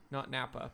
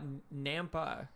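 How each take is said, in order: First: "Napa" said quickly with no m; "Napa", the wine town, no m sound; Napa without m. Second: "Nampa" said slowly with a clear m; "Nampa", not "Napa", m sounded. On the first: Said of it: "but Nampa". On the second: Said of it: "not Napa, but Nampa". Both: Shown as a demonstration.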